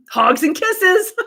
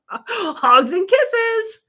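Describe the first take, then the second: First: Sing-song higher, slow sign-off. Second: Very high, very slow giggly sign-off. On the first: Host signing off to a viewer, slow sing-song. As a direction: draw out kisses, higher and slow. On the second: Host signing off to Jennifer, very high drawn-out giggle. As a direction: squeal it high and drawn out, laughing. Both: Real, not acted.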